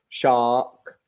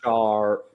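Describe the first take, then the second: First: The R is dropped, leaving an open vowel. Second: The R is pronounced with a curled tongue. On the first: "in British English, we leave it open" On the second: "whereas in American"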